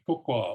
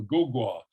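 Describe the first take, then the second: First: "ko kwa" with two voiceless k sounds; both syllables voiceless. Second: "go gwa" with two voiced g sounds; both syllables voiced. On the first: Lecturer correcting the example, "ko kwa" with both initials voiceless. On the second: Lecturer showing voicing options, "go gwa" with both initials voiced. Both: Shown as a demonstration. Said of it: "change the voicing of both syllables".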